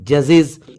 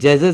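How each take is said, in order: First: The plural ending is said as 'iz'. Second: The plural ending is not said as 'iz'. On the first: The speaker calls it right. "ES को इज पढ़ेंगे" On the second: The speaker calls it wrong. "जजेज नहीं होता"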